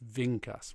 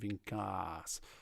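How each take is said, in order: First: The last syllable is soft, not pushed. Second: The last syllable is bumped with an accent. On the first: The speaker calls it right. "Make sure you don't bump the last syllable. It's vincas" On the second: The speaker calls it wrong. "rather than vincas"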